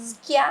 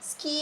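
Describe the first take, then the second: First: The word ends with a ya sound. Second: The word ends with an ee sound. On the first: "ಸ್ಕ್ಯಾ ಅಂತ ಓದ್ಲಿಲ್ಲ" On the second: "ಸ್ಕೀ ಅಂತ ಓದ್ಲಿಲ್ಲ"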